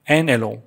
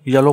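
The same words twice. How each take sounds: First: एलो said with no y sound, starting straight on the e, e-lo; teacher's right way, एन एलो with the y dropped; correct pronunciation. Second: येलो said with a y sound at the start, ye-lo; the common wrong way, येलो with an initial y; wrong pronunciation. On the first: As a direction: say एलो opening on the vowel, no y. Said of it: "actual सही pronounce इसका एलो है". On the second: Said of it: "जो कि सही नहीं है". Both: Shown as a demonstration.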